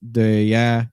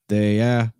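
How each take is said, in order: The two takes are said the same way.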